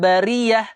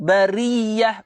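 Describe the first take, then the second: First: The y sound is single and short. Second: The y sound is doubled and held. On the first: The speaker calls it wrong. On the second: The speaker calls it right. "kita pun jumpa sabdu"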